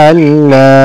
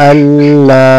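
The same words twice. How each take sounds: Both takes have the same delivery.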